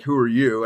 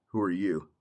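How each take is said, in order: First: Said in the usual way. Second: Quiet menacing echo. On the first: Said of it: "They would say, like". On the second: Retold or imitated. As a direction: lower and softer, cold and threatening. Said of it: "I would just look at 'em and go".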